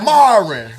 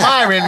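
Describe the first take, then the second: First: The name starts with an 'ah'-like vowel. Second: The name starts with an 'eye'-like vowel. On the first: Someone else said the name this way. The speaker calls it wrong. "He was like, Marin" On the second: This is how the owner says his name. The speaker calls it right. "my name Myron"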